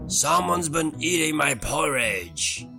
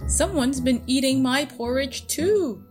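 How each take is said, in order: First: It is roared in Daddy Bear's voice. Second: It is growled in Mommy Bear's voice.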